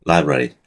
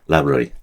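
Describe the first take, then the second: Both takes have the same delivery.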